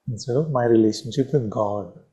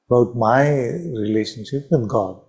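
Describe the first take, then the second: First: "with" stressed and falling in "instead of my relationship with God"; weight the word "with", the rest level. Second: "with" pushed hard, falling, rest of "about my relationship with God" even; stress on with. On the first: Teacher to class, contrasting the stress on "with". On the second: Teacher to class, stressing "with" in the phrase. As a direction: lean on "with" as the key word. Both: Shown as a demonstration. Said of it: "You got the emphasis?".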